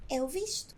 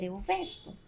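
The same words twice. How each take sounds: First: "eu visto" with i, as the right form; "eu visto" stated as correct. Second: "eu vesto" with open e, as the form not to say; "eu vesto" presented as the mistake; wrong form. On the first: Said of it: "vamos dizer". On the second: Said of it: "não vamos dizer". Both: Shown as a demonstration.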